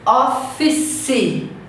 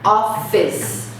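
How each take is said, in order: First: An extra vowel syllable is added at the end. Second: The word ends cleanly on a consonant sound. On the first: The speaker calls it wrong. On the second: The speaker calls it right.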